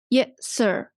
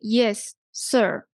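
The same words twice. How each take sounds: First: The two s sounds merge into one. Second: Each s sound is said separately. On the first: The speaker calls it right. "just omit the voice of the first" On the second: The speaker calls it wrong. "But do not say yes, sir"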